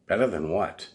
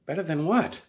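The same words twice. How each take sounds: First: Said in the usual way. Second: Higher, rising "what" in disbelief; incredulous. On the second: Retold or imitated. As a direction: ask it like it's absurd.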